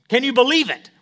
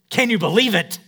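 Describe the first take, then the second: First: It is said as a doubting question. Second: It is said as an amazed exclamation.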